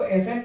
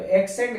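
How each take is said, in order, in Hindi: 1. s से पहले कोई k आवाज़ सुनाई नहीं देती। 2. s से पहले एक k आवाज़ सुनाई देती है। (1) "इसको एसेंट पढ़ते हैं" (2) "एक्सेंट गलत हो जाता है"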